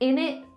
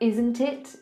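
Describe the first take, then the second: First: The words blend into one short reduced word. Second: Both words are said fully and separately.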